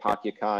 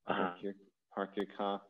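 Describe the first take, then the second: First: The R sounds are dropped, Boston style. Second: The R sounds are clearly pronounced.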